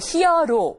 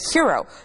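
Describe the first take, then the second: First: It is said as the Korean loanword pronunciation. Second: It is said with English pronunciation. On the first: "우리 말로 할 적에 또 히어로 이렇게" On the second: "hero라고 발음하게 되는"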